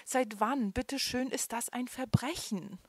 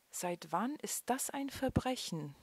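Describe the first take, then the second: First: High, loud, indignant panic on "Verbrechen"; frightened man protests to police, voice trembling. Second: Said in the usual way. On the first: A narrator's reading. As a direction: plead it, scared and outraged. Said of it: "erklärte er mit zitternder Stimme".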